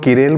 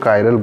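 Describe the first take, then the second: First: The first syllable sounds like 'ki'. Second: The first syllable sounds like 'kai'. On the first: "कुछ लोग किरेल बोलते हैं" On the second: "कुछ लोग कायरल बोलते हैं"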